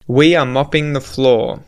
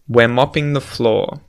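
First: The words are said in full, uncontracted. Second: The words are squeezed into one contracted syllable.

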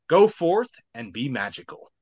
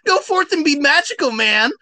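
First: It is said in a regular voice. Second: It is said in Shaggy's voice.

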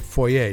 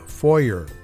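First: The word is said in a fancier, posher way. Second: The word is said in a plain, everyday way.

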